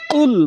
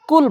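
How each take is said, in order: First: কুল on a heavy back-tongue q; correct qaf qul. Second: কুল with an ordinary forward k; কুল without any depth in the k; incorrect kaf kul. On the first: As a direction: start কুল as Arabic qaf, far back. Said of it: "কুল বলতে হবে". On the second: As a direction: start কুল on a light kaf, not qaf. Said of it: "কুল বলা যাবে না". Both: Shown as a demonstration.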